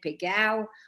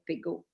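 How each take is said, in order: First: The word ends in a gliding ao sound. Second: The word ends in a single plain o. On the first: This is the Provençal pronunciation. "If they pretend to speak Provençal" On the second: This is the French pronunciation. "if they speak French"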